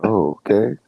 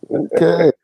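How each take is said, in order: First: Said in the usual way. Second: High mock okay. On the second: Mock backing off.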